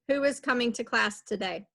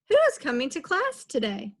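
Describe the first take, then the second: First: It is said flatly, like a statement. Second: It is said with question intonation. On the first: The speaker calls it wrong. "If I do a period, I'm saying" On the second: The speaker calls it right. "If I say it like this"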